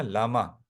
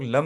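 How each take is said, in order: First: लामा as two open syllables, "laa-maa"; full-vowel लामा. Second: लम as one closed syllable, "lam"; लम cut short, no vowel after the m; wrong reading लम. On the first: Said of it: "pronunciation पूरा लेते हैं ला". (लामा में "ला" और "मा" दोनों पूरे बोलना) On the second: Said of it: "लम नहीं पढ़ते हैं". (लम को एक ही अक्षर में "लम्" पढ़ना) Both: Shown as a demonstration.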